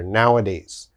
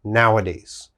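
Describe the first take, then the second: First: It is said with the middle 'a' sound. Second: It is said with the middle 'a' sound.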